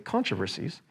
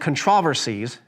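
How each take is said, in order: First: The word gets the usual present-day pronunciation. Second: The word gets an older, period-style pronunciation. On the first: This is how people say it today. "but we would say controversies" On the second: This is how the quoted author would have said it. "at least that's how he would have pronounced it"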